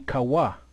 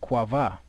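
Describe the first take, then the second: First: The middle consonant is a W sound. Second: The middle consonant is a V sound. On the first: The speaker calls it right. "Which should be Kawa because there's no V" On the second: The speaker calls it wrong. "they throw that V in there"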